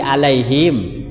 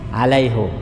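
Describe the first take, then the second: First: The vowel after the h is 'i'. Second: The vowel after the h is 'u'.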